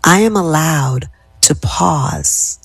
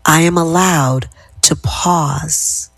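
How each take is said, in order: First: Slow, unhurried repeat; slow calm affirmation. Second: Slow, settled, lowering tone; slow calm affirmation. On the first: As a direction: let the words settle slowly. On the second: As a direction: bring the voice down and slow it. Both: Shown as a demonstration. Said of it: "how my tenor of my voice is going down".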